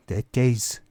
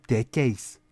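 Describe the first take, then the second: No difference in how they are said.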